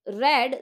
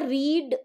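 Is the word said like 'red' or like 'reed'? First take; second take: red; reed. First: The vowel is short, like 'red'. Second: The vowel is long, like 'reed'. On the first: "फिर मैंने इसको रेड पढ़ा" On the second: "अभी मैंने आपको यहाँ पर रीड पढ़ा"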